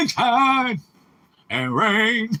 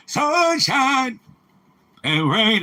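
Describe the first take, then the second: First: Lightly voiced old man, higher; a hint of an old man singing. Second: Put-on high, thin old man voice. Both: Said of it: "That's my old man voice".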